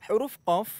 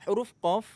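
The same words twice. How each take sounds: The two takes are said the same way.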